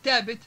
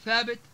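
First: The word begins with a plain t sound. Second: The word begins with a th sound. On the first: This is the Libyan dialect form. "اختفاء حروف مثل الثاء" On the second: This is the Standard Arabic form. "بدل من ثابت"

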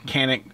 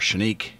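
First: The name is said with an American pronunciation. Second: The name is said with a Turkish pronunciation. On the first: This is how the importer says the name. "But here in America, even by Century Arms, the importer, it goes by Canik" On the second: This is how the name is said in its home country. "if you're from Turkey ... I believe it's Canik or Canik is the way they pronounce it"

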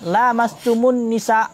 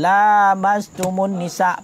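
First: The vowel after the first l is short. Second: The vowel after the first l is long. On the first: It means you touch a woman. "Ada satu kiraah tidak panjang padalah" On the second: It means touching one another. "panjang bakla"

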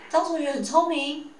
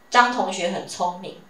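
First: It is said with questioning intonation. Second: It is said with plain declarative intonation. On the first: It asks whether it is true. "变成疑问句" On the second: It simply states a fact. "这是一个直述句"

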